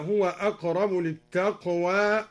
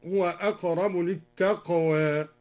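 First: "للتقوى" ending in a full "aa"; full open alif. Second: "للتقوى" with final vowel tilted toward "e"; half-raise the last aa of "للتقوى"; taqlil. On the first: Sheikh reciting before al-Duri's variant, "للتقوى" ending in open aa. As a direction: open the final vowel of "للتقوى" wide. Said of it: "قلل التقوى". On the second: Sheikh demonstrating al-Duri's reading, "للتقوى" ending between aa and e. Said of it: "قلل التقوى هكذا". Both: Shown as a demonstration.

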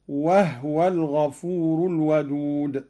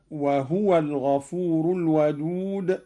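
First: وهو with no vowel on the ه, "wahwa"; silent ha. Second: Said in the usual way. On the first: Shown as a demonstration. Teacher showing Qalun's reading, وهو with a vowelless ه. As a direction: close the ه straight onto the و in وهو. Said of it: "بإسكان الهاء هكذا". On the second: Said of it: "قرأ قالون بإسكان الهاء".

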